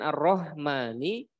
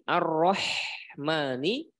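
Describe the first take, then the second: First: The h is a light, plain breathy sound. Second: The h is a harsh sound from the throat. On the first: The speaker calls it wrong. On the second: The speaker calls it right.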